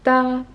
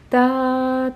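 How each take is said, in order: First: Each syllable is cut off short and detached. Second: Each syllable is held longer, not cut short. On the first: The speaker calls it right. "pour les staccato, avec la langue" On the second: The speaker calls it wrong. "vous n'aurez pas un staccato"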